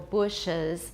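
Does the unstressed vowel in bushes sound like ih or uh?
uh. The unstressed vowel sounds like a neutral uh.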